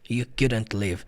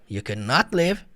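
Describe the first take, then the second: First: Not is contracted into couldn't, unemphasized. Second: Not is a full, separate, emphasized word. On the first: The negative is expressed without special emphasis. "falar abreviado" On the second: The negative side is stressed much more strongly. "Quando você fala de modo separado, enfatizando o not"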